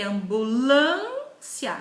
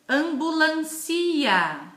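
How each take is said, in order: First: The stress is on the syllable 'lân'. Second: The stress is not on the syllable 'lân'. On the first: The speaker calls it right. "Percebam qual que eu agora eu enfatizei. ... no lã" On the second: The speaker calls it wrong. "Existe essa palavra ambulancia? Não"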